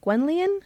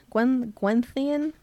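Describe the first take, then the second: First: "Gwenllian" with a plain L sound, rising like a question; unsure pronunciation. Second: Slow, halting "Gwen, Gwenllian" with a TH sound for the double L; unsure second attempt. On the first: Reader guessing at the name Gwenllian with a plain L, unsure. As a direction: try "Gwenllian" as GWEN-lee-un, pitched up questioningly. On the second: Reader retrying Gwenllian slowly with a TH sound, unsure. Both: Shown as a demonstration. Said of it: "I don't really know how to pronounce it".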